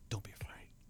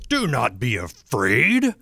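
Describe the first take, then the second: First: It is said in a soft, comforting tone. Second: It is said in a harsh, scolding tone.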